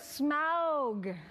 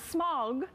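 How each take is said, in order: First: It does not sound like smog. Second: It sounds like the word smog. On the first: The speaker calls it right. "you should learn to say it the appropriate way" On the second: The speaker calls it wrong. "Not smog"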